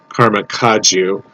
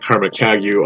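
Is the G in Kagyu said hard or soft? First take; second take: soft; hard. First: The G in Kagyu is soft. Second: The G in Kagyu is hard. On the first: This is how initiated followers say it. "that's what a Karma Kagyu initiated Buddhist told me" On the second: This is how outsiders and websites say it. "it will be a hard G"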